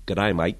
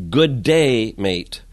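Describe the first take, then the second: First: "G'day, mate" run together fast, Australian style; Aussie G'day. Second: "Good day, mate" with good and day split apart; two separate words. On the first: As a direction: blur "G'day" into one quick Australian word. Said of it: "Just say that fast". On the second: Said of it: "I've been saying". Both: Shown as a demonstration.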